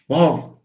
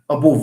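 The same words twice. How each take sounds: First: The first vowel is reduced and barely heard. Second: The first vowel is a full, unreduced vowel. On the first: The speaker calls it right. "because stress falls here ... it's like it's ignored a little bit" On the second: The speaker calls it wrong. "if we pronounce like we write ... We don't speak like that"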